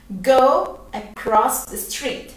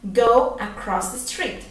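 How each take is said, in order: First: Slow, clear teaching repetition; patient teacher modelling the line; slow model phrase. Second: Said in the usual way. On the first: Shown as a demonstration. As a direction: Go across the street said very slowly. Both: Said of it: "¿Cómo digo eso en inglés?".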